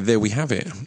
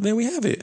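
First: It is said at a normal, lower pitch. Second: It is said in a high-pitched voice. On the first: The speaker calls it right. "is what I meant to say" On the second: The speaker calls it wrong. "Not there we have it"

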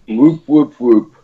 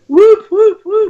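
First: It is said flatly, without conviction. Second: It is said with more energy and conviction.

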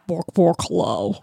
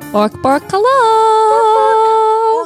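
First: It is said in a low voice. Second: It is said in a high voice.

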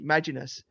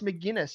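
First: The name is pronounced as Maginus. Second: The name is pronounced as McGinnis. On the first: The speaker calls it wrong. "I'd see it and instantly" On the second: The speaker calls it right. "no, it's McGinnis"

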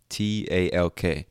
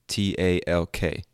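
The two takes are said the same way.

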